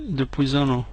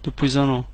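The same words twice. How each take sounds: The two takes are said the same way.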